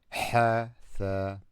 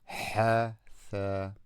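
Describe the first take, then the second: No difference in how they are said.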